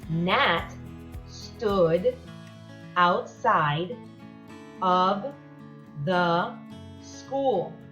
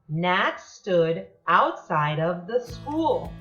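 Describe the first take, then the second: First: It is read at a slower pace. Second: It is read at a faster pace.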